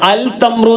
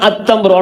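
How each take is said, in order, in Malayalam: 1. 't' ന് മുമ്പ് 'l' ശബ്ദം വരുന്നു. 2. 'l' ഒഴിവാകുന്നു, 't' ഇരട്ടിക്കുന്നു.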